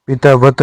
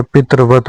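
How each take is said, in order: First: पितावत with taa in the middle; long aa inside पितावत; wrong form. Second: पितृवत with tr in the middle; correct form. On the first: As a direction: say pitaa-vat for पितावत. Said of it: "नहीं होता". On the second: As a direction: say pitra-vat for पितृवत. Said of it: "होता है". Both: Shown as a demonstration.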